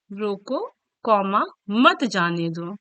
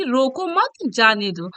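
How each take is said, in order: First: "रोको" set apart, then slow "मत जाने दो" as one unit; low, deliberate break after "रोको", joining "मत" to "जाने दो"; pause after रोको. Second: Slow "रोको मत" together, then a break before "जाने दो"; pause after मत. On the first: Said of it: "रोको के बाद कॉमा लगा". ("रोको" के बाद रुककर, "मत जाने दो" साथ में) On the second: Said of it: "रोको मत के बाद". ("रोको मत" साथ में, फिर रुककर "जाने दो") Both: Shown as a demonstration.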